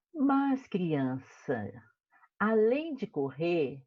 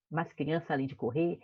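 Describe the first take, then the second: First: "Mas criança, além de correr" drawn out very slowly, each word weighed; slow emphatic reading. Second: Said in the usual way. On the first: Shown as a demonstration. Teacher reading to children, slow dramatic emphasis. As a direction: stretch "Mas criança" out to build suspense.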